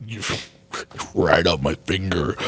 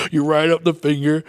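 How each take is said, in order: First: Laughing. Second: Said in the usual way. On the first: Real, not acted. Laughing mid-correction.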